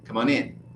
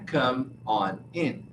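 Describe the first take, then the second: First: The n sounds link into the following vowels. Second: Each word is said separately, without linking. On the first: The speaker calls it right. "O N juntou com O e o N juntou com I" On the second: The speaker calls it wrong. "não é"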